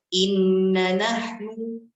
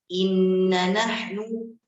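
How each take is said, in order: Both takes have the same delivery.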